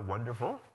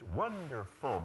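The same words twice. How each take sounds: First: The pitch rises on the last syllable. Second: The pitch falls on the last syllable. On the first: The speaker sounds less confident. The speaker calls it wrong. "which is different from" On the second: The speaker sounds confident and decisive. The speaker calls it right. "You pitch up on the word, but the last syllable always must go down"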